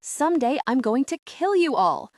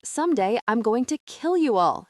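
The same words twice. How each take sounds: First: Put-on higher, louder child's yell; a furious girl yelling at her captors; yelled threat. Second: Put-on level, cold child's threat; a girl calmly promising revenge; eerily calm threat. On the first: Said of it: "throws her head back from Jasper and yells". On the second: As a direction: say it with chilling calm. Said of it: "Grace has grown eerily calm". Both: A narrator's reading.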